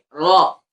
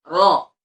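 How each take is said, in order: Both takes have the same delivery.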